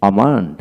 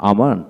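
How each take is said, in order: Both takes have the same delivery.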